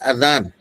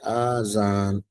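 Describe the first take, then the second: First: The first vowel is short. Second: The first vowel is drawn out long. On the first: It means the call announcing prayer time. The speaker calls it right. "अजान है, आजान नहीं है, मद के साथ नहीं है" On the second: It would mean many ears. The speaker calls it wrong. "आजान ये गलत है। ... मद के साथ"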